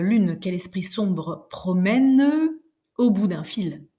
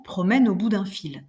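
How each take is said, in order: First: "sombre promène" said slowly with the E sounded; badly scanned verse, E of "sombre" sounded; wrong pronunciation. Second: "promène au bout d'un fil" flowing, the E melting into "au"; smooth correct reading of the line; natural linking. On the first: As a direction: stretch out "sombre" and "promène" as separate heavy syllables. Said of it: "Vous sentez comme ce serait abominable". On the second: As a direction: let "promène" glide into "au" with no E. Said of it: "On va dire tout naturellement". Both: Shown as a demonstration.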